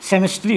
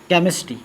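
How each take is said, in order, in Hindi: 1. यह शब्द s ध्वनि से शुरू होता है। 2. यह शब्द k ध्वनि से शुरू होता है। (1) "अगर गलती से पढ़ दिए स" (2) "यहां पर च का सॉरी क का उच्चारण हो रहा है"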